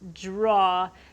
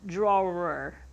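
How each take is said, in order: First: The word ends without an r sound. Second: The word ends with an r sound. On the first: This is how the speaker says it from where they grew up. The speaker calls it right. "I say draw and not drawer" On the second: This is how other people expect it to be said. The speaker calls it wrong. "drawer is not a word"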